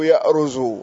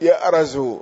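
First: The r is followed by a u vowel. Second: The r is followed by an a vowel. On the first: "وقد تضم" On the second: "فتح الراء"

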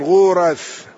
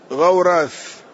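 First: The first consonant is followed by a u vowel. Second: The first consonant is followed by an a vowel.

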